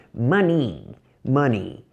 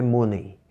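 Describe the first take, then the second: First: Money said as /mɐni/ with an a-like vowel; right pronunciation. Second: Money said as /mone/ with an o vowel; mock wrong pronunciation. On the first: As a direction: model the correct money with an open a. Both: Shown as a demonstration. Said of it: "não é money".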